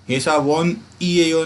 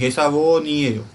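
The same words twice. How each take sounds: First: ऐसा वोन ईएयो with a break after वोन; wrong split reading. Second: ऐसा वो नीएयो with the न carried onto नीएयो; correct linked reading. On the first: Teacher shows students the wrong reading, slowly. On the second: Teacher gives students the correct reading, slowly. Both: Shown as a demonstration. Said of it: "नहीं".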